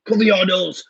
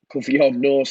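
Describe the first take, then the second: First: Raised, higher mock scolding shout; going mad, telling off. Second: Said in the usual way. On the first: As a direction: yell it like an exasperated parent. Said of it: "I'd go mad at them as well". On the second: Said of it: "says Ed".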